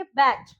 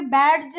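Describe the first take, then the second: First: Said in the usual way. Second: बैज with the d sounded, "bad-j"; mispronounced badge. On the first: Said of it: "हम बोलेंगे". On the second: Shown as a demonstration. Teacher showing what not to say, बैज as "bad-j". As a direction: sound a separate d before j in बैज. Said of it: "नहीं बोलेंगे हम".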